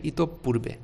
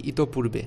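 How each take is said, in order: First: ইতঃপূর্বে with the p held and doubled, ই-তোপ-পূর্বে; correct pronunciation. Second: ইতঃপূর্বে said loosely with a single light p, no doubled sound; ইতঃপূর্বে as people usually say it, the p short and unstressed; common everyday pronunciation. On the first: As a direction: say ইতঃপূর্বে carefully, lengthening the p after the visarga. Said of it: "সঠিক উচ্চারণ হবে ইতঃপূর্বে". (সঠিক উচ্চারণে ইতঃপূর্বে, প দ্বিত্ব করে) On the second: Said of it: "যদিও আমরা উচ্চারণ করি কি?". (প্রচলিত উচ্চারণে ইতঃপূর্বে, প দ্বিত্ব ছাড়া) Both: Shown as a demonstration.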